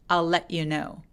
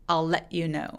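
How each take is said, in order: The two takes are said the same way.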